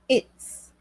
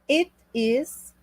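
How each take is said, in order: First: The words merge into one short syllable. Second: Both words are said separately in full.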